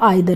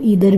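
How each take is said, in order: First: The first vowel sounds like 'eye'. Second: The first vowel sounds like 'ee'. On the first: "और आइदर भी बोल सकते हैं" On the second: "आप इसको ईदर भी बोल सकते हैं"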